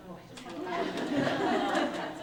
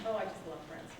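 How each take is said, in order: First: A fan's gush that swells to a loud cry of love. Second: Said in the usual way. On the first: Real, not acted. Poet gushing to the audience about [name], swelling excitedly. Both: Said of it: "but I love [name] more".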